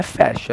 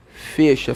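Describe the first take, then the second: First: "fecha" with an open e, like "fécha"; "fecha" said FEH-sha; wrong open E. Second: "Fecha" with a closed e, like "fêcha"; "Fecha" said FÊ-sha; correct closed E. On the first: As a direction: mispronounce "fecha" with the e of "pé". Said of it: "Então, não é fecha". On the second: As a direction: say "Fecha" with the e of "você". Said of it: "é o quê?". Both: Shown as a demonstration.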